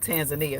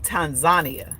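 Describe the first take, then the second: First: It is said the speaker's usual English way. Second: It is said the way Kiswahili speakers say it. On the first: The speaker calls it wrong. "not Tanzania" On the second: The speaker calls it right. "If you speak Kiswahili, they say Tanzania"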